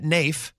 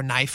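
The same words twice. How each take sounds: First: "Nafe" with a long A, rhyming with safe. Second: "Knife" rhymed with wife, like the blade. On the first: Host tries the owner's name, saying "Nafe" rhyming with safe. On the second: Host corrects himself, saying "Knife" like the blade. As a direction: say "Knife" exactly like the word knife. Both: Shown as a demonstration. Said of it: "however you pronounce his name".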